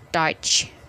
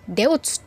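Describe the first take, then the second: First: The vowel is read as 'o-i'. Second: The vowel is read as 'e-u'. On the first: The speaker calls it right. "tapi dibacanya Deutsch" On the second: The speaker calls it wrong. "itu adalah Deutsch tulisannya"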